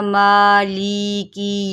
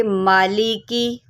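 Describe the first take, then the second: First: माली की with every vowel stretched long; wrong, over-lengthened vowels. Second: माली की with each vowel kept short; correct short vowels. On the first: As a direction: show the mistake: drag out each syllable of माली की. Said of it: "लंबा करके नहीं पढ़ना". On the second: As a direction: model माली की evenly, no stretching of any syllable. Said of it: "इसको पढ़ेंगे". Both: Shown as a demonstration.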